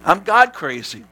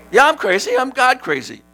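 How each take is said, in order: First: God leaned on slowly; stress on God. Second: Excited. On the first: Pastor answering teasing, stress on God. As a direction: hit God in I'm God crazy. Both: Real, not acted. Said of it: "Tony, you're crazy".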